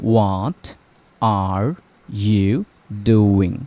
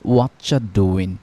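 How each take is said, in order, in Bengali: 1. প্রতিটি শব্দ আলাদাভাবে এবং পুরোপুরি বলা হয়। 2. শব্দগুলো দ্রুত একসাথে মিশে যায়, যেমন 'whatcha doin'। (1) "এটার আসল ফর্মটা ছিল এরকম" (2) "যখন নেটিভরা দ্রুত কথা বলে তখন এটা শোনা যায় এরকম"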